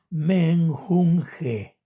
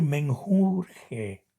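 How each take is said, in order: First: "menjunje" drawn out syllable by syllable, with N; careful correct reading. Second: "menjurje" with R in place of N; mistaken pronunciation. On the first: Teacher after spelling it out, very slow "menjunje" with N. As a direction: model "men-jun-je" very slowly, N before J. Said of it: "Y que se lee". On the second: Teacher warning viewers against the error, "menjurje" said with R. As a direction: show the error "menjurje", R before the J. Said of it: "no cometamos el error de decir". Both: Shown as a demonstration.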